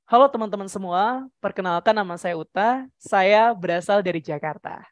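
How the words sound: The pitch starts low and moves up high. "dari rendah ke tinggi"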